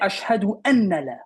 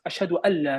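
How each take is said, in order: First: The n sound is clearly pronounced before la. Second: The n sound is skipped, merging into la. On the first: The speaker calls it wrong. "So people say ashhadu anna la. It's incorrect" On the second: The speaker calls it right. "This literally jumps to this"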